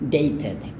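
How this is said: It is said in a British accent. "Kalau aksen Inggris"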